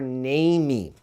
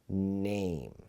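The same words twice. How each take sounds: First: The word is pronounced as if Portuguese. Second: The word is pronounced as in English. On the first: The speaker calls it wrong. "no forma fonética que nem tem português" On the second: The speaker calls it right. "a gente fala name"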